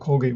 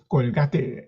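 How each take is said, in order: First: It is said the English way. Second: Every letter is pronounced the Spanish way.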